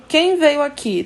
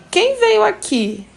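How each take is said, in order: First: "Quem" hit first and hardest, then falling; stress on quem. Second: Slow, much higher, sung-out question; question intonation. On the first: Teacher showing the emphasis on "Quem" in the direct question. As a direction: lean on "Quem" to drive the question. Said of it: "quem" tá dando ênfase na pergunta". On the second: Teacher modelling a direct question for students, high and drawn out. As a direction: ask it big and slow like a showcase question. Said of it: "se caracteriza pela entonação ascendente". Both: Shown as a demonstration.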